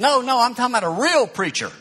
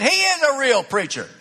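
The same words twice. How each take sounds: First: "real" punched high, voice raised; stress on real. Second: "is" hit high and loud, insisting; stress on is. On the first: Friend dismissing the pastor, stress on "real". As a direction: lean hard on "real", mocking doubt. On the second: Woman insisting to her friend, stress on "is". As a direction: lean on "is" to defend him. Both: Retold or imitated.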